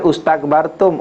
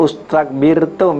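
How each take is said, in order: First: The vowel before the last syllable is 'a'. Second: The vowel before the last syllable is 'i'. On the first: The speaker calls it wrong. "jangan ustakbartum" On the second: The speaker calls it right. "akhir sebelum akhir baris bawah"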